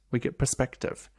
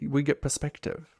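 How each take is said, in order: First: "we get perspective" said slowly, each word weighed; slow down and land "perspective"; slow emphatic. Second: Said in the usual way. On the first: Shown as a demonstration. Coach repeating her point slowly with weight on "perspective". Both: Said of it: "fact, we get perspective".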